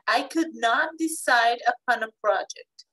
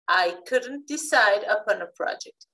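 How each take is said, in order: First: 'Could not' is said as two full words. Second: 'Could not' is contracted into one word. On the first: The sentence is more formal. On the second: The sentence is more informal.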